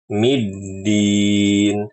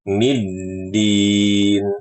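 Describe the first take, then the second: Both takes have the same delivery.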